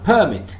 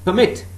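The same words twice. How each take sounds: First: The stress is on the first syllable. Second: The stress is on the second syllable. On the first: It is used as a noun. "it is a noun, permit" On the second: It is used as a verb. "it's a verb, permit"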